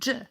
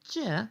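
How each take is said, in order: First: The sound is harsh and strong. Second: The sound is soft and light. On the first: The speaker calls it right. "the sound is harsher and stronger than the letter j" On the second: The speaker calls it wrong. "instead of saying j"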